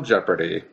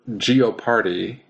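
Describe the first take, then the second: First: The word begins with the sound 'jep'. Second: The word begins with the sounds 'gee-oh'.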